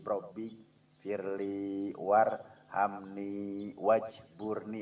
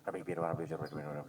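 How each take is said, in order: First: It is recited slowly and carefully. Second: It is recited hurriedly and carelessly.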